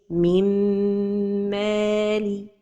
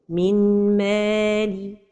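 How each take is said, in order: First: The merged nasal m is held long. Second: A distinct n sound is heard before m. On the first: The speaker calls it right. "So the right pronunciation is" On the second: The speaker calls it wrong. "Another mistake is to pronounce it noon"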